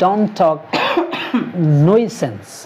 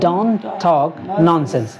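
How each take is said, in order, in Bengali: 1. 'nonsense' শব্দের প্রথম অংশটি 'noy' এর মতো শোনায়। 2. 'nonsense' শব্দের প্রথম অংশটি 'non' এর মতো শোনায়। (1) "কেউ আবার উচ্চারণ এর বলতে পারে"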